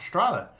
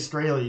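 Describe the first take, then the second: First: The name is said with German pronunciation. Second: The name is said with American pronunciation. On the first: This is how the name is said in Germany. "she had a German accent" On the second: This is how the family says the name. "we say Straley"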